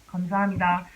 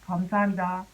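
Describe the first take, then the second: The two takes are said the same way.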